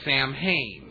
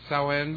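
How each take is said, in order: First: The name is read as English spelling suggests. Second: The name is said in its native form. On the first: The speaker calls it wrong. "if you read the word in American, it would be Samhain" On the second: The speaker calls it right. "it's Samhain"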